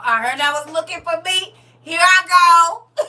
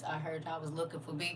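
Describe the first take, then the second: First: Cash doll voice. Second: Hushed, quick cash doll voice. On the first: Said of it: "Come on". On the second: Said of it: "In my cash doll voice". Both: Shown as a demonstration.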